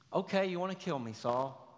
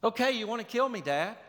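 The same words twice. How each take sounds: First: Sarcastic. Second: Sarcastic, higher. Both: Acted. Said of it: "It's sarcasm".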